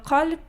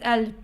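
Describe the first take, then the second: First: The word begins with a deep q sound. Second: The word begins with a glottal stop.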